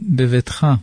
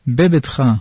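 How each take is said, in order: First: The second consonant is a soft v sound. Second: The second consonant is a hard b sound. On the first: The speaker calls it right. "במקום" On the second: The speaker calls it wrong. "ולא יחזיק הרפא"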